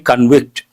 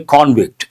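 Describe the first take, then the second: First: The stress is on the second syllable. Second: The stress is on the first syllable. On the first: It is used as a verb. "As a verb, we say convict" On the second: It is used as a noun. "As a noun, we say convict"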